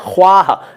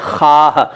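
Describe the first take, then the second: First: A w sound follows the kh sound. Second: No w sound follows the kh sound. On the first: This is the word's written form. "वो है ख्वाह" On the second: This is how people actually say it. "लेकिन बोलते हैं खाह"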